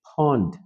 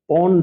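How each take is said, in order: First: The p is said with a strong puff of air. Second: The p is said without a puff of air. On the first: The speaker calls it right. "হয়ে যাবে পন্ড" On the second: The speaker calls it wrong. "পন্ড হবে না"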